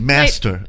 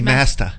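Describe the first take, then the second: First: The final R sound is pronounced. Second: The final R sound is dropped.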